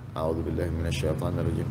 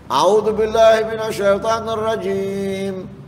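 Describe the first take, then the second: First: It is recited softly. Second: It is recited loudly.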